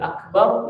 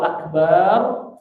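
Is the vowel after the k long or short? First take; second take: short; long. First: The vowel after the k is short. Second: The vowel after the k is lengthened. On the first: It means great. The speaker calls it right. "Akbar itu besar" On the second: It means a drum. The speaker calls it wrong. "Tapi kalau akbar itu apa? Bedung"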